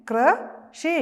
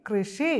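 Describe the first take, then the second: First: High, loud model of കൃഷി; teacher models കൃഷി for the class; drawn-out model word. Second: Said in the usual way. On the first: Shown as a demonstration. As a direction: stretch കൃഷി out for the children to repeat. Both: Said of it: "പറഞ്ഞേ".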